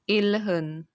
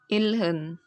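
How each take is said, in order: First: The middle consonants sound like l then h. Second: The middle consonants sound like l then h.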